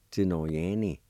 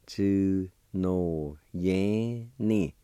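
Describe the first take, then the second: First: Said in the usual way. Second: Tsu no yan ni drawn out slowly and carefully, falling on ni; slow Cherokee demo. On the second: Shown as a demonstration. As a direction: stretch Tsu no yan ni out for the learner. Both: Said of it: "it's pronounced like this".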